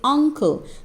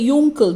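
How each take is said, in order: First: The word begins with a vowel sound. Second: The word begins with a Y sound. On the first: The speaker calls it right. "we say uncle" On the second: The speaker calls it wrong. "We don't say yuncle"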